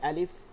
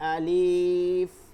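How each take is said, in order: First: The first vowel is short and quick. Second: The first vowel is drawn out long. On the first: The speaker calls it right. "এখানে দ্রুত বলতে হবে" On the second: The speaker calls it wrong. "আবার আলিফ এভাবে কিন্তু কোনো টান নাই এখানে"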